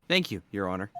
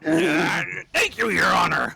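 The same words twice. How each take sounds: First: It is said in a neutral tone. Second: It is said in an angry tone.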